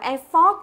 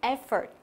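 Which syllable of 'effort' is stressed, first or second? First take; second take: second; first. First: The stress is on the second syllable. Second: The stress is on the first syllable. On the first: The speaker calls it wrong. "Từ này không đọc là effort nhớ chưa?" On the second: The speaker calls it right. "cũng là âm thứ nhất"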